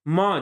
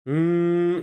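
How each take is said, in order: First: The m is said with a full vowel after it. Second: The m is a closed-lip nasal hum with no vowel. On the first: The speaker calls it wrong. "माँ जैसे हम बोल रहे हैं, ये उच्चारण नहीं होता है" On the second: The speaker calls it right. "ये उच्चारण होता है"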